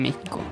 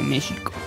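First: The middle consonant is a throaty J sound. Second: The middle consonant is an SH sound. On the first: The speaker calls it wrong. "no se dice México" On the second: The speaker calls it right. "se dice México"

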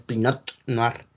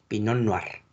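First: The T at the end of Pinot is pronounced. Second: The T at the end of Pinot is silent. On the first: The speaker calls it wrong. "no se pronuncia la T, no es Pinot Noir" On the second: The speaker calls it right. "es Pinot Noir"

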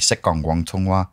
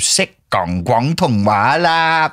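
First: It is said plainly, with tones but no exaggeration. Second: It is said with an exaggerated, put-on accent. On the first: The speaker calls it right. "get the tones, but say it normally" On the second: The speaker calls it wrong. "please don't try and sound Chinese ... that just sounds horrible"

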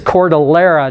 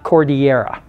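First: The double L is said as an L. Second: The double L is not said as an L. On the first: The speaker calls it right. "the L was pronounced. ... And so it's Cordillera" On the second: The speaker calls it wrong. "not Cordillera"

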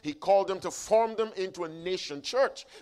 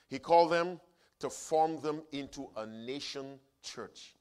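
First: The phrase is spoken at a normal, quicker pace. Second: The phrase is spoken at a slower pace.

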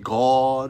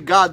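First: The word is said in an exaggerated, pious voice. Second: The word is said in a plain, ordinary voice. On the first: "they say God. They talk like that. Holy" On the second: "they don't say God"

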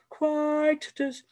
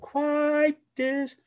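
First: The T is clearly released and heard. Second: The T is swallowed and barely heard. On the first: The speaker calls it right. "I like quietus" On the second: The speaker calls it wrong. "implode the T and go quietus and really not have it be heard"

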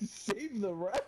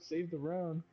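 First: The voice rises at the end, as a question. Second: The voice falls at the end, as a cheer.

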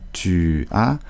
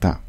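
First: The two words are said fully and separately. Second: The two words merge into a single syllable. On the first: This is the careful full form. "on ne dit pas tu as" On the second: This is how it sounds in natural speech. "on dit souvent ta"

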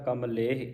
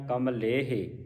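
First: The word ends in a short i vowel. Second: The word ends in a long e vowel. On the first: The speaker calls it right. "ਇੱਥੇ ਲੱਗੀ ਸਿਆਰੀ ਹਾਹੇ ਨੂੰ। ਉਚਾਰਨ ਹੋਵੇਗਾ ਕਮਲੇਹ" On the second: The speaker calls it wrong. "ਕਮਲੇਹੇ ਦਾ ਫਿਰ ਹਾਹੇ ਨੂੰ ਲਾਂ ਲੱਗਦੀ ਹੈ"

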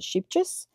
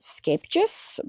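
First: The name is said with simplified English pronunciation. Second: The name is said with Dutch pronunciation. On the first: This is the easier everyday pronunciation. "We pronounce it Scheepjes" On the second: This is the brand's proper pronunciation. "it's actually pronounced Scheepjes"

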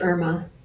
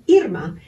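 First: The name has an English pronunciation. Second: The name has a Spanish pronunciation. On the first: This is how English speakers say it. "in English is pronounced Irma" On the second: This is how the name's owner says it. "But that's not how I say my name"

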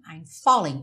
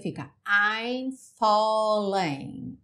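First: The first syllable of falling is much stronger. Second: The second syllable of falling is stronger. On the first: This is the normal way of saying it. "normalmente você falaria I'm falling, O fó seria muito mais forte do que o ling" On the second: This follows the rhythm of the song. "pela métrica da música"

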